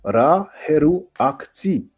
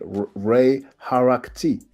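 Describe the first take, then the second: First: The name is said as three separate parts. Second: The name is said as two run-together parts.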